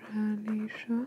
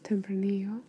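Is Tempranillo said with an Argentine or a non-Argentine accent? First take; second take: Argentine; non-Argentine. First: The word is said in an Argentine Spanish accent. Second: The word is said without an Argentine accent. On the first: "I'm gonna just say it with an Argentine accent" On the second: "or I guess"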